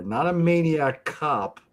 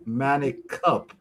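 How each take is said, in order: First: Said in the usual way. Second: Manic Cup said slowly, short 'man' and 'cup' with u; slow punning Manic Cup; pun pronunciation. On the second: Shown as a demonstration.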